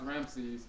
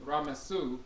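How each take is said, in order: First: The name is said in two syllables. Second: The name is said in three syllables. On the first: The speaker calls it wrong. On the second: The speaker calls it right.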